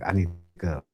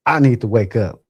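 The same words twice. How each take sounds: First: Said in the usual way. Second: Louder, mildly frustrated self-command; getting mad. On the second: Retold or imitated. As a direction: push it out, a touch angry. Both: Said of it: "Now I'm getting mad".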